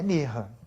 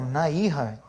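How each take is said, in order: First: The two words are joined, vowels merged into one. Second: The two words are said separately, vowels unmerged. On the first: The words are joined as in the actual text. "tem uma coisa chamada Sandi. Sandi quer dizer junção" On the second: Each word is read on its own. "eu estou lendo sem o Sandi"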